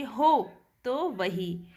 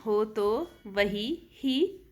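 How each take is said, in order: First: हो तो वही said slowly with हो held long and तो short; natural pronunciation. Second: हो तो वही ही very slow, each syllable stretched for scansion; metrical counting. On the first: Teacher demonstrates how students will pronounce it, slow demo. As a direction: show हो तो वही with long हो and quick light तो. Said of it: "जैसे अपन उच्चारण करेंगे". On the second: Teacher scans the verse for the meter, very slow. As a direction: scan हो तो वही ही beat by beat. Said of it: "लघु में ही गणना करेंगे". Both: Shown as a demonstration.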